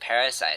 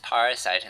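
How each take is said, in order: First: It is said like the ordinary English word parasite. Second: It is said as the separate parts para and site. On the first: The name is read as the ordinary word. The speaker calls it right. "as it probably should be pronounced" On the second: The name is read as the word para plus site. The speaker calls it wrong. "my uh, reason for pronouncing it as Parasite"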